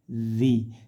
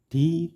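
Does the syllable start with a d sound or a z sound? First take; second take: z; d. First: The syllable starts with a z sound. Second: The syllable starts with a d sound. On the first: The speaker calls it right. "tapi zi" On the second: The speaker calls it wrong. "jangan sampai membaca seperti huruf dal"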